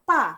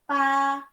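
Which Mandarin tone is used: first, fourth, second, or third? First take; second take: fourth; first. First: It is said with the fourth tone. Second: It is said with the first tone.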